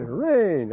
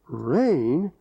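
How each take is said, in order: First: It sounds glad and relieved. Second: It sounds like a surprised question.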